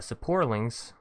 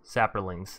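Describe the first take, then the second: First: The r comes after the o: sa-por-lings. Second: The r comes before the o: sa-pro-lings. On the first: It is the speaker's own easy Southern way of saying it. The speaker calls it wrong. "I call it Saporlings" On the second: It is how the commenters say it. The speaker calls it right. "Let me say this right"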